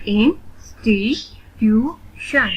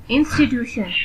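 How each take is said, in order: First: "इंस्टीट्यूशन" slowly in four spaced beats; split into syllables. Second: Said in the usual way. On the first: Shown as a demonstration. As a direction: say "इंस्टीट्यूशन" one syllable at a time. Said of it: "split in the syllables". ("इंस्टीट्यूशन" का हर syllable अलग-अलग) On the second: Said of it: "read the word".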